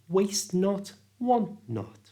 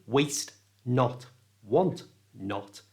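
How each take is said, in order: First: Each t is half said, blending into the n. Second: Each t is fully released before the n. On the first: The speaker calls it right. "it becomes" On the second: The speaker calls it wrong. "which sounds like a robot"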